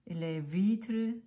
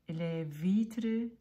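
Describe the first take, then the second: No difference in how they are said.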